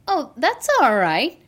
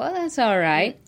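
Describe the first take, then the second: First: The voice sounds warm and genuinely pleased. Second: The voice sounds flat and only lukewarm. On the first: The speaker thinks it is good. "you know if I like it or not" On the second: The speaker is just accepting a minimum. "If it's just like, okay, just so-so"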